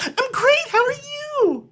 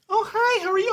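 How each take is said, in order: First: Extremely high, loud, drawn-out phony reply; over-the-top fake friendly. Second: Very high-pitched phony hello; exaggerated high social-greeting voice; fake friendly greeting. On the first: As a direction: top their fake greeting with even more gush. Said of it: "a tweak above whatever they're giving me". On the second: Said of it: "I kinda go a little bit above".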